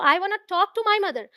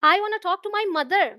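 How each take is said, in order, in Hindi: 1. Stress शब्द 'talk' पर है। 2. स्ट्रेस शब्द 'mother' पर है। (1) "ऐसा नहीं है कि सिर्फ उन्हें देखना है मुझे" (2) "पिता से नहीं"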